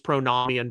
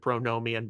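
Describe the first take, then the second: First: The middle O is said as a short vowel. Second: The middle O is said as a long vowel. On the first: This follows the Greek word it comes from. "I use pronomian because uh, Bill Patrick in our Greek classes said it was nomos with a short O sound" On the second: This is the pronunciation most people use. "You probably hear the pronunciation pronomian"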